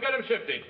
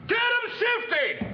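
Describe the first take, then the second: First: It is said at a normal, quieter volume. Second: It is shouted loudly and aggressively.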